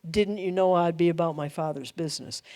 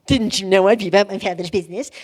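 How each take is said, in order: First: Quiet, earnest and gentle; softer, sincere and unhurried. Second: Put-on fast, smart-mouthed teen retort; sarcastic teenage back-talk; cocky teenager. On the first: Shown as a demonstration. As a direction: say it simply, with calm authority. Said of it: "He was reflecting the I am". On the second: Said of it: "I don't think he said it cocky".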